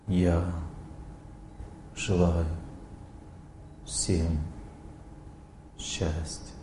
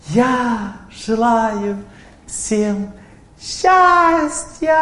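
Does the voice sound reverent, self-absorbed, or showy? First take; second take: reverent; showy. First: The voice sounds reverent and self-forgetting. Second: The voice sounds showy and boastful. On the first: The speaker speaks on behalf of a revered memory. The speaker calls it right. "Человек настраивается на память о святыне, о старшем" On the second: The speaker is just showing off how cool they are. The speaker calls it wrong. "Это называется выпендреж. То есть это эмоциональная платформа"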